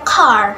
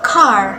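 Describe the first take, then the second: First: The final r sound is clearly pronounced. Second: The final r sound is clearly pronounced.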